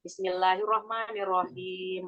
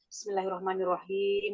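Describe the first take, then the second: First: It is recited slowly and carefully. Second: It is recited quickly but clearly. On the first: "apa yang lambannya" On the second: "Lah kalau tergesa-gesa"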